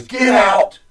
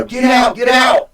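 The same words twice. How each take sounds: First: Sudden high shout of "Get out!"; a sharp, higher yelled command; retold shout. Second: Much higher, louder shout of "Get out, get out!"; a stronger, higher repeat of the command; retold shout, stronger. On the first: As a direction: bark it at him like a warning. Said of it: "she turns her head and says". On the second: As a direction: yell it urgently, driving him from the room. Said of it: "Like, you know".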